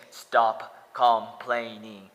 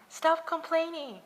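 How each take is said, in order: First: Loud, slow drawn-out mock scolding; mock yell. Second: Very high, loud squeal of a nagging critic; mocking high shout. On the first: Critics online yelling at him, loud slow mock scolding. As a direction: bellow it slowly like a scolding critic. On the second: Mocking Facebook critics, high loud squealing voice. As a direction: shriek it like an annoying nag. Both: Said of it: "They say".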